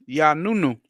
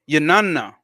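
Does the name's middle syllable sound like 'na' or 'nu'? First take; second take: nu; na. First: The middle syllable has an 'oo' vowel. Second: The middle syllable has an 'ah' vowel. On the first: The speaker calls it wrong. "pronounced as Yanunu" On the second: The speaker calls it right. "Not new. ... Now that sound more right"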